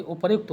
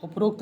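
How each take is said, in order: First: "उपर्युक्त" with र्यु instead of रो; correct form. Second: "उपरोक्त" with rokt; wrong form. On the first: Teacher correcting students, yukt ending. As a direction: sound r-y-u in "उपर्युक्त". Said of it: "ये उपर्युक्त होता है". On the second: Teacher quoting the mistake, o in last syllable. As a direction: say "उपरोक्त" with an o vowel. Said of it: "उपरोक्त नहीं होता". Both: Shown as a demonstration.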